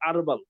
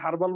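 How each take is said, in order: First: The word starts without any h sound. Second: The word starts with an audible h sound. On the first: The speaker calls it right. "এইচ এর উচ্চারণটা silent থাকে" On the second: The speaker calls it wrong. "ইংলিশে এটা হার্বাল বললে বুঝবে না"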